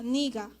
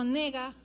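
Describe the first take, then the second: First: The first vowel is an i sound. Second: The first vowel is an e sound. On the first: It clearly means you. The speaker calls it right. "Aunque se escribe con e, se pronuncia niga" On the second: It could mean either you or I. The speaker calls it wrong. "si yo digo nega, no sé si estoy diciendo tú o yo"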